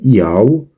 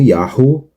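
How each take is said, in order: First: The h sound is left out. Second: The h sound is clearly breathed. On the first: "se ouve os judeus pronunciando este sufixo como Yau" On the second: "e não como"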